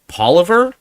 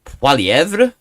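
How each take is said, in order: First: The name is said with English sounds. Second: The name is said with fully French sounds. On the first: This is how the name has usually been said. "as it's, it's he's normally been" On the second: This is the fully French way of saying it. "do we go really French?"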